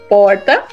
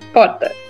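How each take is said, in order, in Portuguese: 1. Dito com sotaque do interior, com o R alterado. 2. Dito com sotaque da cidade de São Paulo. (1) "Normalmente no interior a gente vai falar porta. O R muda" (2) "Em São Paulo, capital, que é de onde eu sou... eu falo porta"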